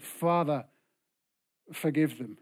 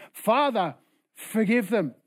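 First: Praying. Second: Raised, louder plea to the Father; insistent prayer. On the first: Jesus praying for his killers, calm prayer. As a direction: pray it evenly, letting it fall away. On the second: Jesus insisting on forgiving those hurting him, raised prayer. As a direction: pray it firmly over the objections. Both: Acted. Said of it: "Jesus prayed".

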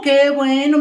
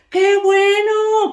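First: Said in the usual way. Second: Much higher, slow, drawn-out "Qué bueno"; delighted. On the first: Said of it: "repeated, second take". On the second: Acted. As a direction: sing out "Qué bueno" high and long. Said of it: "repeated, first take drawn out". ("Qué bueno" muy agudo y alargado)

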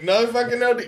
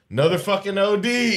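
First: Higher, hammed-up jaded complaint; exasperated mock groan. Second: Weary, unimpressed grumble; bored jaded sigh. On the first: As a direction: overplay the fed-up medic. Mock bored first responder again. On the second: Retold or imitated. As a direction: play a fed-up paramedic shrugging it off. Mock bored first responder.

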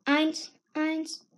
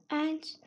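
First: Said in the usual way. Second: Soft trailing eins like a mountain echo; fading echo. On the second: Acted. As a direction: let eins die away, much softer. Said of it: "klang es wie das Echo in den Bergen".

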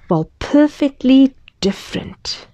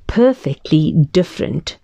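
First: Whispered title, hushed and mysterious. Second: Said in the usual way. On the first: Acted. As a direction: breathe the title like a secret.

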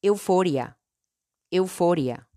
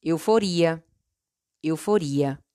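First: "euforia" in Spanish, stressed on FO. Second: "euforia" in Portuguese, stressed on RI. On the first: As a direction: say "euforia" as eu-FO-rya. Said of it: "En español". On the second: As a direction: say "euforia" as eu-fo-REE-a. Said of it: "En portugués". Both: Shown as a demonstration.

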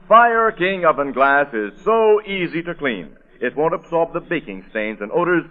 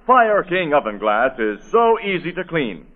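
First: "Fire King oven glass is so easy to clean" said slowly, every word weighted; slow, deliberate ad read. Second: Said in the usual way. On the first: Shown as a demonstration. Announcer repeating the slogan for listeners, slow and deliberate. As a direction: lean on each word, slowly, selling it. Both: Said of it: "That's it".

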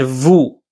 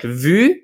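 First: Vous with the French oo vowel. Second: Vu with the French u vowel. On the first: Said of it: "two words that are one sound apart". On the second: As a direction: say vu as in French, distinct from vous. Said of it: "an example of this in French". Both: Shown as a demonstration.

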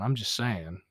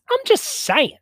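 First: Said in the usual way. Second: Mock emphatic repeat, much higher and louder. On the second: Shown as a demonstration. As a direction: jump way up and louder on I'm.

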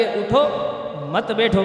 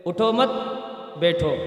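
First: "اٹھو" alone, pause, then "مت بیٹھو" together; breath before مت. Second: "اٹھو مت" joined, pause, "بیٹھو" dropping lower; no breath before "مت", break before "بیٹھو"; اٹھو مت run together. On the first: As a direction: take a breath after "اٹھو", join "مت بیٹھو". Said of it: "مت سے پہلے جو ہے سانس لینے کا مسئلہ". ("اٹھو" پر وقفہ، پھر "مت بیٹھو" ملا کر) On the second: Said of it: "اس کو ملا کے بولو". ("اٹھو مت" ملا کر، وقفہ، پھر "بیٹھو") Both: Shown as a demonstration.

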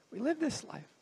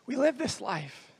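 First: Softly spoken, letting it sink in; hushed repetition. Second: Said in the usual way. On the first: Acted. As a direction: drop the volume for a reflective repeat. Repeats the line more softly.

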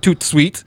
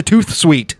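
First: "toot sweet" with a plain T closing toot; original French-derived pronunciation. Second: "tooth sweet" ending the first word in TH; altered pronunciation. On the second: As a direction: say "tooth sweet", with TH as in the tooth you chew with. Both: Shown as a demonstration. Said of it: "You change it to tooth sweet".

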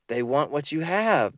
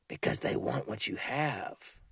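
First: Said in the usual way. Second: Much softer and slower, drawn out; soft, slow answer. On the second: Acted. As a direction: let the answer sink in quietly. Answers own question, then repeats line.

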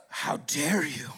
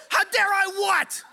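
First: Slow, low offended client voice; hammed-up wounded dignity, low and slow; mock indignation. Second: High, loud, drawn-out disbelief; hammed-up outraged retort; incredulous mock shout. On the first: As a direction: draw it out low, acting deeply affronted. Offended client answers in a quarrel. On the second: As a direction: throw it back loudly, pitched way up. Storyteller fires back in acted quarrel.

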